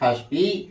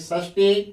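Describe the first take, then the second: First: The word begins with a 'kh' sound. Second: The word begins with an 'sh' sound. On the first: "पढ़ते हैं खष्टी" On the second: "लिखे हैं षष्ठी"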